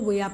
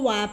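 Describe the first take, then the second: First: The first vowel sounds like 'ee'. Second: The first vowel sounds like 'eye'. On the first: "कुछ लोग इसको विया पढ़ते हैं" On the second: "कुछ लोग इसको वाया पढ़ते हैं"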